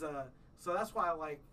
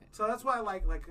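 First: Said in the usual way. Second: Higher and louder, pushing the point; louder restart. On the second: Real, not acted. Friend on podcast restarting his point louder.

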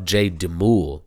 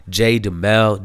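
First: "Demul" with an oo in the last syllable; trying a pronunciation. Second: "Demel" with an e in the last syllable; trying a pronunciation. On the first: Host correcting an artist's name, trying "Demul" with an oo. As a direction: slowly say "Demul" to end like "mool". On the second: Host unsure of an artist's name, trying "Demel" with an e. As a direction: say "Demel" to end like "mel". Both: Real, not acted. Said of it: "I guess that's how you say it".

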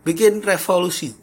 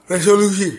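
First: "revolusi" said by mistake; wrong word slip. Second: "resolusi" corrected, louder and higher; self-correction. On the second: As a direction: fix it to "resolusi" with a jolt. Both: Real, not acted. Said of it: "Eh, resolusi".

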